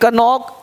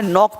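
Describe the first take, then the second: First: The word begins with a k sound. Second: The word begins with n, no k. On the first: The speaker calls it wrong. "ऐसे गलत हो जाएगा" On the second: The speaker calls it right. "नॉक पढ़ना है"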